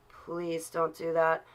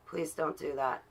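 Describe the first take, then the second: First: "Please don't do that" stretched slowly, word by word; slow, insistent repeat of "Please don't do that"; drawn-out plea. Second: Said in the usual way. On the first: Real, not acted.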